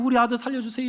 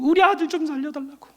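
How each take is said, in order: First: It is said stiffly, without emotion. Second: It is said with desperate pleading.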